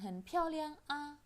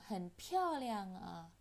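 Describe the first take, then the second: First: The final syllable is said separately from the previous. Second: The final syllable is joined smoothly to the previous. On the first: The speaker calls it wrong. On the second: The speaker calls it right. "a-nya juga disambung"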